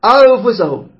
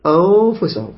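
First: أنفسهم with higher, pressed hidden ن; wrong unbalanced ikhfa. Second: أنفسهم with ن hummed between nose and mouth; balanced ikhfa. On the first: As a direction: overdo the held ن of أنفسهم. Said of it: "خطأ". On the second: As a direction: hold a relaxed hidden ن in أنفسهم. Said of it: "هكذا". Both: Shown as a demonstration.

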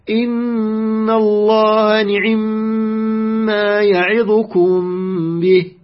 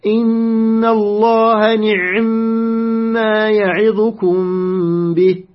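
First: Measured recitation, the i of the ayn in نعم cut to two-thirds; snatched kasra on ayn. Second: Measured Quran recitation, ayn closed in نعم before a long humming m; ayn with sukun. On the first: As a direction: chant the verse slowly, نعم as ni'imma with a very brief i after the ayn. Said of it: "ثلث الحركة نختلسها ونأتي بالثلثين". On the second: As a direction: chant the verse slowly, نعم as ni'-mma with a vowelless ayn. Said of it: "سكون العين". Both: Shown as a demonstration.

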